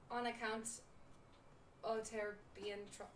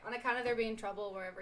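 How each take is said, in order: First: Halting put-on pirate brogue; unsure, broken-off pirate accent; attempted pirate accent. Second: Said in the usual way. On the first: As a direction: try a pirate accent and break off. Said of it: "I'm not committing. I can't do it". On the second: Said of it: "no, okay".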